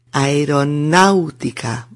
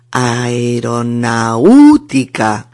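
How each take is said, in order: First: 'aeronáutica' said as a-e-ro-NÁU-ti-ca; stress on A. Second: 'aeronáutica' drawn out as a-e-ro-na-Ú-ti-ca; wrong stress on U. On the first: Teacher gives the correct form, stress on A. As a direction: stress the A of 'náu', keeping 'au' together. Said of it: "con acento en la A". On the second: Teacher shows learners the mistake, stress wrongly on U. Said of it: "si te equivocas y acentúas la U, suena así". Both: Shown as a demonstration.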